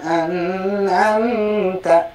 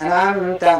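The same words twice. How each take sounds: First: The n sound is held long before the next syllable. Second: The n sound is clipped short and hurried over. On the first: "Tidak boleh ditahan" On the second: "atau dipercepat"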